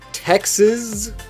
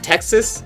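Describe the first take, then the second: First: The middle consonant is a buzzing Z sound. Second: The middle consonant is a hissing S sound. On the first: The speaker calls it wrong. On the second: The speaker calls it right.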